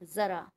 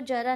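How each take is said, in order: First: It begins with a 'z' sound. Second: It begins with a plain 'j' sound. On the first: The speaker calls it right. "हम इसको ज़रा बोलेंगे अब" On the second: The speaker calls it wrong. "हम इसको जरा नहीं"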